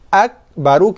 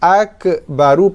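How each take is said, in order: First: The k is held with breath let out. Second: The k is released with a bouncing echo. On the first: The speaker calls it right. "kita tahan nafas, tahan suaranya" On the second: The speaker calls it wrong. "akbaru pun tak mau, dah jadi qalqalah"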